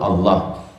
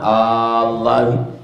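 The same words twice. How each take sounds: First: The first vowel is kept short. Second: The first vowel is drawn out long. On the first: It states the oath without a question. "yang kedua tak ada mat" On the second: It asks a question: by Allah? "pertama Allah"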